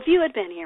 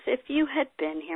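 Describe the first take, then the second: First: It sounds reproachful and accusing. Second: It sounds tearful and grieving. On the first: She is blaming him for not coming. "with her hand on her hip or wagging her finger at Jesus, like" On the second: She is pouring out her grief to him. "Mary says it in a heap of tears"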